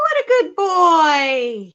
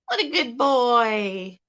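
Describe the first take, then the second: First: Higher, slow and loud praise; drawn-out praise to a pet, raised up; slow louder praise. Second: Said in the usual way. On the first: Shown as a demonstration. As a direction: sing it out for the bird to copy. Modeling phrase for parrot.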